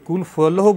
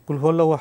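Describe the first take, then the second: First: The second word begins with an 'f' sound. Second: The second word begins with an 'h' sound. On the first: The speaker calls it wrong. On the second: The speaker calls it right.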